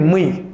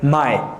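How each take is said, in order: First: The vowel sounds like 'ee'. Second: The vowel sounds like 'eye'. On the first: The speaker calls it wrong. "I was saying me all the time" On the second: The speaker calls it right. "the pronoun like my"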